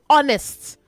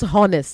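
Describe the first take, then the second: First: The word starts with a vowel, no H sound. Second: The word starts with an audible H sound. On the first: The speaker calls it right. "say honest" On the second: The speaker calls it wrong. "not honest"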